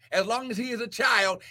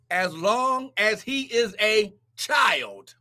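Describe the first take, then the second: First: Fast offhand repeat; quick reread. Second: Slow scripture reading. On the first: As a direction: skim back over the verse quickly. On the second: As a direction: read each word slowly for weight. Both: Real, not acted.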